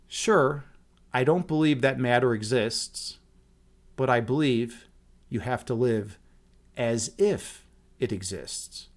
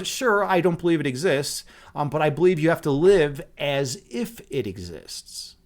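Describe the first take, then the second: First: It is said slowly. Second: It is said at normal speed.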